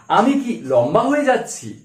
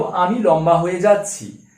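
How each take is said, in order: First: "আমি কি লম্বা হয়ে যাচ্ছি" lifted as a question; questioning tune. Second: Said in the usual way. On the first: Shown as a demonstration. Teacher posing an example question, "হয়ে যাচ্ছি" in an asking tune. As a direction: ask it, pitch swelling on "হয়ে" then falling. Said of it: "জিজ্ঞাসা করছি". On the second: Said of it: "এবারে suppose আমি প্রশ্ন করলাম".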